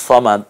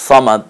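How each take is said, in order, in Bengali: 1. প্রথম ব্যঞ্জনটি ভারী, ঠোঁট গোল করে। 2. প্রথম ব্যঞ্জনটি ভারী, ঠোঁট গোল করে।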